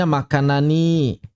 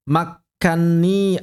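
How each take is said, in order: First: "makanani" as makkanani, na and ni separate; bentuk asli. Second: Slow "Makani" as makkanni, double n held; bentuk idgham. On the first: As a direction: give "makanani" its full na-ni ending. (lafalkan "makanani" lengkap, na-ni terpisah) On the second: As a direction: draw out the n in "Makani". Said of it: "Aslinya makanani". (lafalkan "Makani" sebagai makkanni, nun ditahan) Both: Shown as a demonstration.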